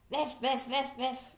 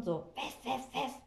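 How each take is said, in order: First: Higher mock poodle yapping; yappy poodle bark. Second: Mock little dog barking; yappy poodle bark. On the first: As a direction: yap like a silly little dog. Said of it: "Hör doch mal, wie bescheuert". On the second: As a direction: yap like a silly small poodle. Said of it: "kläfft so laut".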